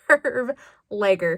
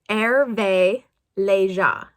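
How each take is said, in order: First: The name is said with English-style sounds. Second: The name is said with French-style sounds. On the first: This is how the speaker usually says it. The speaker calls it wrong. "It's like Herve Lager" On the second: This is the proper pronunciation. The speaker calls it right. "the pronunciation for it is Hervé Leger"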